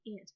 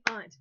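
First: "aunt" said like the insect "ant"; flat-a aunt. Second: "aunt" said with an open ah, as "ahnt"; broad vowel in aunt. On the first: Teacher admitting her habit, "aunt" said as ant. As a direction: say "aunt" with the short a of cat. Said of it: "[name] always wants to say aunt". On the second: Teacher reading the spelling word, "aunt" said as ahnt. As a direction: say "aunt" to rhyme with font. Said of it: "always wants to say aunt". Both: Shown as a demonstration.

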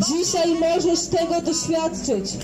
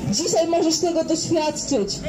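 The two takes are said the same way.

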